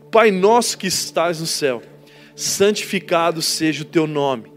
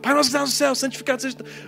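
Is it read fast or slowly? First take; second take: slowly; fast. First: It is read slowly and calmly. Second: It is read very fast.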